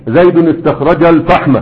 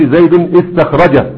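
First: "زيد، استخرج" joined as zaydunistakhraja; linked hamzat wasl. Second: "زيد استخرج" broken into zaydun, istakhraja; wrongly sounded hamza. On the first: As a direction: run "زيد" into "استخرج" with no glottal break. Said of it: "فتقول استخرج". (وصل "زيد، استخرج" دون نطق الهمزة) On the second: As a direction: put a glottal i at the start of "استخرج" after zaydun. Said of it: "ما تقولش". (قطع همزة "استخرج" بعد "زيد") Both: Shown as a demonstration.

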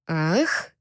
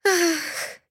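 First: Lower, quizzical male echo of ах; surprised, teasing repeat; mocking echo. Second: High breathy gasp-moan ах; indecent moan. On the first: Captor echoes her moan, puzzled and teasing. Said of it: "Альфа поднял брови от удивления". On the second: Heroine lets out an embarrassing moan. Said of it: "услышала я неприличный стон". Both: A narrator's reading.

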